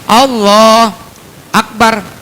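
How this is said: There is a short pause between the words.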